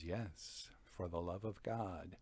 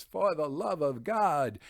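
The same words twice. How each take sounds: First: Much softer, lower, mocking echo; a low, soft, cold echo of the plea; cold reply. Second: Higher, louder mock plea; a hammed-up desperate plea, higher and louder; panicked pleading. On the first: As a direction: hand his plea back to him, coldly quiet. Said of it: "and Montresor says". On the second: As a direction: beg for mercy as the doomed man. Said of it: "a panicked Fortunato pleads".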